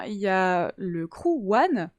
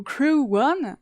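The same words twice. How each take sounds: First: Said in the usual way. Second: Crew One said the English way, slow, as kroo wun; English accent. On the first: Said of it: "l'accent, euh, anglais". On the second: Shown as a demonstration. To the chat, showing how to say Crew One: English accent. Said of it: "avec, euh, l'accent, euh, anglais".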